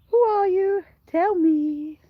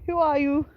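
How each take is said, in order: First: Higher, playful asking; mock curious. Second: Said in the usual way. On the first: Real, not acted. Farmer teases unseen viewers, higher playful question. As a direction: ask again, pitched up and teasing. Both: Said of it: "I can see there's people watching".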